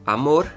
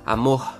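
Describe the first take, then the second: First: The r sounds like a Spanish r. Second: The r sounds like a soft h, Rio-style.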